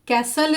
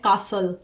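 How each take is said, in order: First: The first vowel sounds like the a in cat. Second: The first vowel sounds like the a in car. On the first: "कैसल इसको बोलते हैं American English में" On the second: "British English में इसको pronounce करते हैं कासल"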